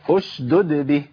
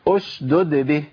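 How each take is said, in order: No difference in how they are said.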